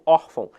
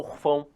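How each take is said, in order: First: The stress is on the first syllable. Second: The stress is on the last syllable. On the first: The speaker calls it right. "Então eu falo órfão. ... eu tenho uma paroxítona terminada em ão" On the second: The speaker calls it wrong. "se aqui fosse um acento gráfico, eu não falaria órfão, eu falaria orfão, e não é o caso"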